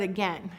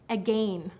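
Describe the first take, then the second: First: The second vowel is a short e sound. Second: The second vowel is a long A sound.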